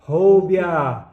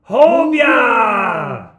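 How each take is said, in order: First: It is said at medium loudness. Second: It is said loudly.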